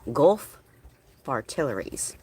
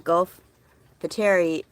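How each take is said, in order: First: The second word is said as 'far-tillery'. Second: The second word is not said as 'far-tillery'. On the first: The speaker calls it right. "say the word artillery and then put far in front of it" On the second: The speaker calls it wrong. "I don't say it right"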